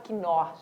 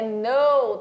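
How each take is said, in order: First: The initial k sound is pronounced. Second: The initial k sound is silent. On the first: The speaker calls it wrong. "Você não fala que know, não é caso quinor" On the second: The speaker calls it right. "Sem o K pronunciado"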